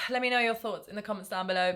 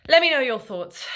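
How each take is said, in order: First: Said in the usual way. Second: Louder, higher let me know your thoughts; energetic sign-off line; upbeat call out. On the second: Real, not acted. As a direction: call out to the viewers.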